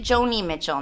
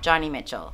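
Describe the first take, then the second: First: The first name has a long O vowel. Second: The first name has a short O vowel. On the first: The speaker calls it right. "you pronounce it Joni Mitchell" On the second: The speaker calls it wrong.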